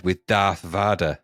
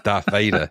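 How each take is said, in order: First: "Vader" with an ah in the first syllable; soft-a Vader. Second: Said in the usual way. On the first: Retold or imitated. Quoting the TV airing's slip to a co-host, soft-a Vader. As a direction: say Vader as "Vah-der". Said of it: "they famously said ... instead of Darth Vader". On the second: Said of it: "instead of Darth Vader".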